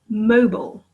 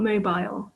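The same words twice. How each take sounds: First: It is said with an American pronunciation. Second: It is said with a British pronunciation. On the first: "but here mobile" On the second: "not mobile"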